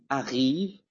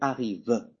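First: The final vowel is silent at the end. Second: The final vowel is pronounced at the end. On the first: The speaker calls it right. "On dit arrive" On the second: The speaker calls it wrong. "La finale ne se prononce pas en français. Donc je ne veux pas dire arrive. Non?"

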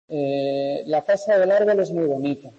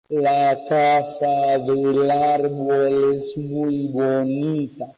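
First: It is spoken quickly with short pauses. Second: It is spoken slowly with long pauses. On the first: "un discurso normal" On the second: "ralentizar. ... que parece que lo dice un robot, ¿no? Y alargando la pausa, lo que yo he hecho"

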